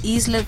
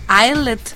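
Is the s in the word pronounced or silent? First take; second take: pronounced; silent. First: The s sound is pronounced in the word. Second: The s is silent, as in island. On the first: "se dice Islet" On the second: "no sé si se dirá Islet, así como Island"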